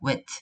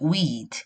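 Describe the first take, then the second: First: The vowel is said short. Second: The vowel is said long. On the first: The speaker calls it right. "짧게 발음을 하셔야 돼요" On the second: The speaker calls it wrong. "이렇게 길게 해버리면"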